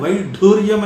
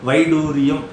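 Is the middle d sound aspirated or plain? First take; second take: aspirated; plain. First: The d sound is aspirated, with a breath. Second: The d sound is plain, without a breath. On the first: The speaker calls it wrong. "ఒత్తు పెడతాం" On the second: The speaker calls it right. "ఒత్తు లేదు దానికి"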